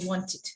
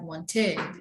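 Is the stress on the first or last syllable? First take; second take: first; last. First: The stress is on the first syllable. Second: The stress is on the last syllable. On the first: The speaker calls it right. "we have to say wanted" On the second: The speaker calls it wrong. "please do not pronounce that ed in this way as a stress"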